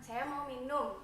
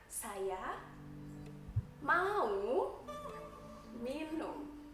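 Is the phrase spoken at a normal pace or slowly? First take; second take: normal; slow. First: The phrase is spoken at an ordinary conversational pace. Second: The phrase is spoken slowly, each word clearly separated. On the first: This is how it is said to native speakers. "itu di sini kan kayak biasa banget kan" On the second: This is how it is said to foreign learners. "Tapi di sana saya harus mengatakan"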